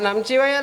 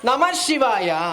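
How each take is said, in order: First: The first word ends abruptly, with no breath. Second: The first word ends with a breathy h. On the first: The speaker calls it wrong. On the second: The speaker calls it right.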